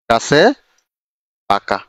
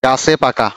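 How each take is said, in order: First: গাছে and পাকা said apart with a pause between; slow dictation for students to copy; word by word. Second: Said in the usual way. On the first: Shown as a demonstration. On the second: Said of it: "এটা পরের একটাতে যাই".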